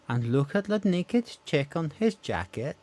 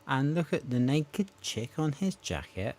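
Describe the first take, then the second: First: It is said in a Welsh accent. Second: It is said in the speaker's usual accent.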